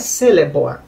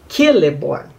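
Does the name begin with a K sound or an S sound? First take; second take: S sound; K sound. First: The name begins with a soft S sound. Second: The name begins with a hard K sound. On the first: The speaker calls it wrong. "não é Celeborn" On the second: The speaker calls it right. "essa letra C tem que ser falada como a letra K"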